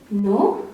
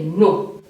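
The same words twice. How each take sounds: First: "no" lifting in pitch with a little doubt; rising intonation. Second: "no" dropping in pitch, rudely final; falling intonation. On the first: Child answers a parent politely and doubtfully, rising "no". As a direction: raise "no" at the end for politeness. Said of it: "use a rising intonation". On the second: Child answers a parent's homework question rudely, falling "no". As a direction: let "no" fall to a blunt close. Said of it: "that is falling intonation". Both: Shown as a demonstration.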